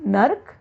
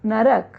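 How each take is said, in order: First: नर्क clipped, nark; नर्क, the r cluster closes the word; wrong form. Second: नरक in three syllables, na-ra-k; नरक, open ra; correct form. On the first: Teacher showing the wrong form. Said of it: "अशुद्ध है". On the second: Teacher giving the correct form. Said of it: "होना चाहिए नरक". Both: Shown as a demonstration.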